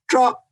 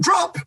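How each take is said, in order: First: It is said calmly, in a relaxed way. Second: It is said urgently, with alarm. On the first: It is an ordinary, relaxed command. "where I'm nice and relaxed and calm" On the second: Something has gone wrong and it is an emergency. "which basically means in my voice, I'm freaking out"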